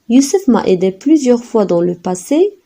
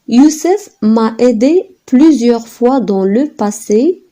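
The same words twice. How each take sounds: First: The sentence is read at normal speed. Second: The sentence is read at a slow pace.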